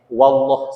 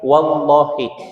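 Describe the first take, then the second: First: The word ends on a consonant, no final vowel. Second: The word ends with a short final i vowel. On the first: The oath is left incomplete and does not count. The speaker calls it wrong. "tidak sempurna mengucapkan qasamnya" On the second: The oath is complete and binding. The speaker calls it right. "yang harusnya wallahi"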